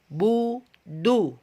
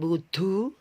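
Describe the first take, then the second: First: The d is voiced with the breath held back. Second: The d is released with a flow of breath. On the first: The speaker calls it right. "tapi budu" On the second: The speaker calls it wrong. "bukan budu"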